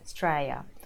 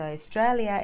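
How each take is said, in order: First: The word is said in a shortened form. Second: The word is said in full.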